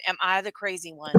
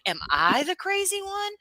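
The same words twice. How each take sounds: First: Said in the usual way. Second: Very high-pitched, exasperated plea; incredulous self-questioning. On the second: Acted. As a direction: ask it way up high, in mock disbelief. Incredulous self-doubt, wants it as button.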